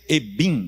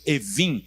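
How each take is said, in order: First: The middle consonant is a b sound. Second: The middle consonant is a v sound. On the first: This is how the word is written. "escreve-se Ebim" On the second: This is how the word is pronounced. "pronuncia-se Evim"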